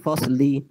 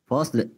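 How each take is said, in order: First: The final vowel after l is fully sounded. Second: The final vowel after l is barely sounded. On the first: "Kalau bunyi yang betul" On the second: "satu per tiga bunyi, sedikit sahaja bunyi"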